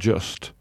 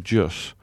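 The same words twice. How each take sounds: First: The word ends with a t sound. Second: The word ends without a t sound. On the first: The speaker calls it wrong. "not just" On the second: The speaker calls it right. "just spelt without a T, so just"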